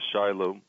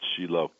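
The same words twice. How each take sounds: First: The name has an English pronunciation. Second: The name has a Hebrew pronunciation.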